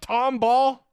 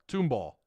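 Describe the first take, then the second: First: The first syllable sounds like 'Tom'. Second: The first syllable sounds like 'tomb'. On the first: The speaker calls it right. "That's how they pronounce it" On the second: The speaker calls it wrong. "Thought it was two two like the tomb"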